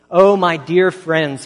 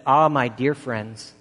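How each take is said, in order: First: Loud, slow, impassioned plea; a slow, loud, heartfelt appeal from the pulpit; pleading. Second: Slow, gently earnest address to the flock; a mild, slow pastoral plea; earnest appeal. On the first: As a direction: cry out to them, begging. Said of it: "he pleaded". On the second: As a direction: draw them in slowly, like an old preacher. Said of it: "And he said to them this". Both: Retold or imitated.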